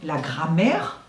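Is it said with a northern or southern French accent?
northern. It is said with a northern French accent.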